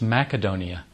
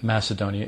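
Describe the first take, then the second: First: It is said with the local pronunciation. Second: It is said with an American pronunciation. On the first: The speaker calls it right. "it's Macedonia" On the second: The speaker calls it wrong. "that's the American way to say the name of the country"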